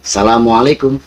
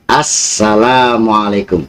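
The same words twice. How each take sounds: First: The word is said without the full 'salam'. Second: The word keeps the full 'salam' sound. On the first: The speaker calls it wrong. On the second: The speaker calls it right.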